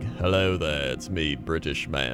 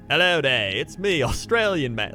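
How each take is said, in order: First: It is said in a British accent. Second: It is said in a twangy Australian accent.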